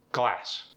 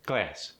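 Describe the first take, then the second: First: Said in the usual way. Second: "glass" with a tight, raised A; tense the vowel in "glass", toward "gleh-ass"; Philadelphia-accented "glass", A raised; Philly short A. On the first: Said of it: "give you an example". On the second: Shown as a demonstration. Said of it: "They're tighter, more raised".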